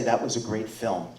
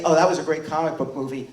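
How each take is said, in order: First: Reverent. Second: Quick, offhand dismissal; dismissive. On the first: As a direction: lower and softer, with respect. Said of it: "we can all say". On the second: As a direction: toss it off like faint praise. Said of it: "we don't just say". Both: Shown as a demonstration.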